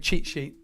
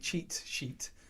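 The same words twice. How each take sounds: First: The T sounds are dropped. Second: The T sounds are clearly pronounced. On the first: The speaker calls it wrong. "That's my Essex accent uh, dropping the T's there" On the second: The speaker calls it right. "I have to try and say cheat sheet"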